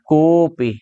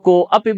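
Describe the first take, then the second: First: The o is drawn out with no a. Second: A separate a sound follows the o. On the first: The speaker calls it right. "ओ को थोड़ा खींच कर बोलना है" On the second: The speaker calls it wrong. "कुछ लोग को अपि बोल देते हैं, को अपि नहीं होगा"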